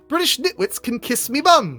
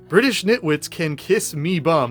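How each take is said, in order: First: It is said in a British accent. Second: It is said in a flat American accent. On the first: "the voice that was in my head" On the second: "read it with an Americanized accent"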